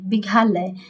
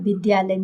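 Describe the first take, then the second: First: The middle sound is pronounced as 'gha'. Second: The middle sound is pronounced as 'dya'. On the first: The speaker calls it wrong. "यहाँ घ लिखे हैं, ये विघालय" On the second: The speaker calls it right. "लेकिन पढ़ेंगे क्या, विद्यालय"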